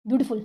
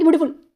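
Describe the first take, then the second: First: ब्यूटीफुल softly, in two parts; two syllable beats. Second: ब्यूटीफुल run together fast, no gap; hurried unbroken ब्यूटीफुल; rushed in one go. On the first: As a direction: say ब्यूटीफुल carefully as ब्यूटी plus फुल. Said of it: "and then full". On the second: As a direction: rattle off ब्यूटीफुल as one beat. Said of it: "एकदम थोड़ी ना बोल देंगे". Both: Shown as a demonstration.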